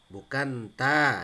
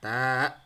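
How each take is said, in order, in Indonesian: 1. Kata ini diakhiri dengan vokal terbuka. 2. Kata ini diakhiri dengan hamzah. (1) "bukan ta ya. Kalau ta berarti ada harokat fathah" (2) "ada hamzah di belakang"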